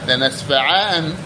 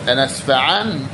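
Both takes have the same delivery.

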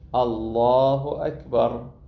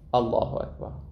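First: The word Allah is drawn out and lengthened. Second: The word Allah is said short, without lengthening. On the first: The phrase spans the whole raising and lowering of the hands. The speaker calls it right. "الإطالة في التكبير ومد الله" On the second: The phrase is said after the hands have already moved. The speaker calls it wrong. "البعض شو يسوي؟"

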